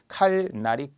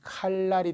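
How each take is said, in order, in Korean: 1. 중간 소리는 l 뒤에 n이에요. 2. 중간 소리는 l 뒤에 l이에요.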